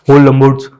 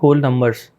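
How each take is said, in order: First: It is said loudly in a booming, echoing voice. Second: It is said in an ordinary, normal voice. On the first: Someone else said it this way. "बड़ा volume वैसा था कि बहुत ज़्यादा" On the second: This is how people usually say it. "जैसे अपन बोलते हैं"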